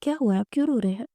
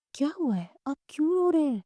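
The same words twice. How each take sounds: First: Gentle. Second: Higher, worried questioning; mildly alarmed. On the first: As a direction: ask it gently, with mild care. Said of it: "نرمی سے بولی". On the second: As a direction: ask with a touch of panic, pitch lifted. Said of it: "وہ گھبرا گئی". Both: A narrator's reading.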